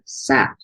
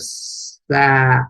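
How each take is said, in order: First: The word is said faster, sounds closer together. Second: The word is said slowly, sound by sound. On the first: "A little faster" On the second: "Let's sound it all out together"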